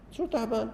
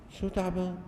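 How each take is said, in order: First: شو تعبان؟ repeated much higher, scoffing disbelief; louder indignant retort. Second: Indignant retort. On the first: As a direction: throw "شو تعبان؟" back, sharper and higher. (استنكار ساخر بصوت أعلى وأحدّ) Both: Real, not acted.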